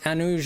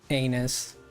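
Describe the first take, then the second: First: The word is said the Portuguese way. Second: The word is said the English way. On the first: "it's pronounced anush" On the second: "instead of like anus"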